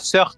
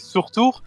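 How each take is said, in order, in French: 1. Le nom se prononce court, comme 'surf'. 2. Le nom se prononce plus long, comme 'surtour'. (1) "ça se dit pas Surf" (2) "mais ça se dit Surtour"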